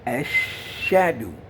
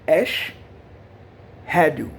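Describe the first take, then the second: First: It is run together without a separate h. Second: It is split into two parts with an h. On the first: The speaker calls it wrong. "Many people make a mistake and say" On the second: The speaker calls it right. "there's two words"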